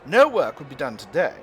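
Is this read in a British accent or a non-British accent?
British. It is read in a put-on British accent.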